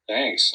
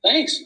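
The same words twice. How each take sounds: First: Low sarcastic thanks. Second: High, loud excited thanks; excited shriek. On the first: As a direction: mumble it, unimpressed. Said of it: "I mumbled sarcastically". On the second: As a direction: squeal it with joy. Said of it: "I shrieked". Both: Shown as a demonstration.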